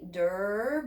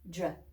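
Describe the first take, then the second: First: A short vowel separates the d and r. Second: The d and r blend with no vowel. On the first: The speaker calls it wrong. "you never leave it with der" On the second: The speaker calls it right. "adjust your pronunciation to say dr"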